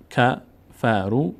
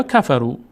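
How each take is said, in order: First: کفرو very slowly, broken into three syllables; spaced-out teaching demo of کفرو. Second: Said in the usual way. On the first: Shown as a demonstration. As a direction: sound out کفرو as ka, fa, ru. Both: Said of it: "همینطور اینجا".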